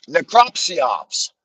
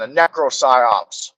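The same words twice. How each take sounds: First: Very slow NECROPSYOPS, stretched out; slow repeat. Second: Slow, deliberate NECROPSYOPS, each syllable laid out; coined word said slowly. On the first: Repeating his coined term to the audience, stretched out. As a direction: drag out necropsyops. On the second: Coining his own term for the viewers, slow and deliberate. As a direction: savour the new word necropsyops. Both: Shown as a demonstration. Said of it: "That's what I called it".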